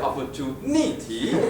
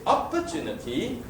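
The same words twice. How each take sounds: First: The stress is on the fourth syllable. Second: The stress is on the first syllable.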